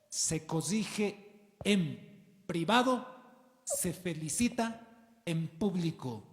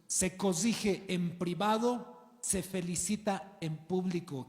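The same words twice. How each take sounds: First: Slow, stressed teaching line; slow emphatic maxim. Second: Slow, stressed, repeated; slow emphatic maxim. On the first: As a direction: spell the principle out slowly. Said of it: "principio de liderazgo". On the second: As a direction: drive the maxim home. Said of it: "Esto también para tus hijos". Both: Shown as a demonstration.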